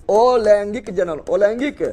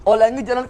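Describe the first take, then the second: First: अलैंगिक जनन spoken slowly in separated parts; measured dictation of अलैंगिक जनन; slow term drill. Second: Said in the usual way. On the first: Shown as a demonstration. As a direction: draw out अलैंगिक जनन for pupils to catch. Repeating the new term for pupils.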